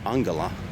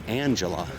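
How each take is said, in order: First: The name is said with Hungarian sounds. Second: The name is said with English sounds. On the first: The speaker calls it right. "the pronunciation in Magyar is actually" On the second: The speaker calls it wrong. "for years I used to pronounce her name"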